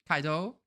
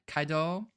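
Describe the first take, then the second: No difference in how they are said.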